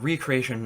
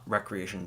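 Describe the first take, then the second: First: The first syllable sounds like 'ree', as in re-create. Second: The first syllable sounds like 'rek', as in wreck. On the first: Creating something again. "I mean recreation" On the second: Leisure and fun activity. "not recreation, because create mode is not at all fun"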